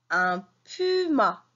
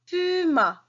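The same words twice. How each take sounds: First: "Un puma" said slowly and clearly; slow modelling. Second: "Puma" sung out high with a falling end; high emphatic repeat. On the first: Teacher modelling "Un puma" slowly for pupils. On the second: Teacher repeating "Puma" high for pupils to copy. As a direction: lift "Puma" high then let it fall. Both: Shown as a demonstration. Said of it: "teacher models word".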